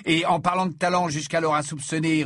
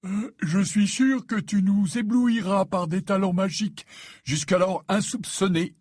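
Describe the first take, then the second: First: Said in the usual way. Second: Slow, higher-pitched words through a yawn. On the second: A narrator's reading. Fred feigns interest in Ron's threat, yawning. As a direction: yawn your way through the sentence. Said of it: "dit Fred en bâillant".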